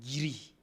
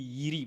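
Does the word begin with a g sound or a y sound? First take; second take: g sound; y sound. First: The word begins with a g sound. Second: The word begins with a y sound. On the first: This is the Mali Bamana form. "Les Bamana, ils disent Giri" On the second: This is the Burkina Faso form. "nous, on dit Yiri pour dire arbre"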